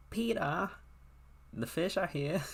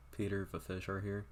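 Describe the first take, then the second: First: High-pitched put-on British woman; British accent. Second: Said in the usual way. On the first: Woman calling Peter about the fish, mock British accent. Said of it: "I don't know why I made her sound British". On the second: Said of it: "made her sound British".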